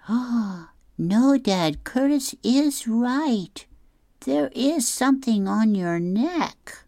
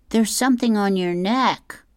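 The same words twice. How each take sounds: First: High squeaky Barry. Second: Put-on high kid voice. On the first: Acted. Barry voiced, repeating Curtis. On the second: Curtis voiced in comic.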